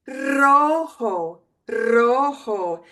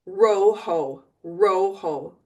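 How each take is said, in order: First: "rojo" with a long rolled R at the start; trilled R. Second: "rojo" with an untrilled English R. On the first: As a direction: roll the tongue hard on the R of "rojo". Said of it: "so you know that you trill it". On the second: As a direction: start "rojo" like English "row". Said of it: "just use an English R". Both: Shown as a demonstration.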